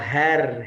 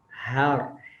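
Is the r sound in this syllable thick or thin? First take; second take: thin; thick. First: The r is thin, with a light vowel. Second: The r is thick, with a full vowel. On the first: "kalau tipis ke bawah" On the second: "tan har seperti itu ya"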